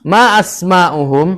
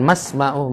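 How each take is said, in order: First: A glottal stop separates ma from asma'uhum. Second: Ma runs straight into asma'uhum without a break. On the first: The speaker calls it right. "Jadi harus dibaca ma asma'uhum" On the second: The speaker calls it wrong. "bukan masma'uhum, bukan"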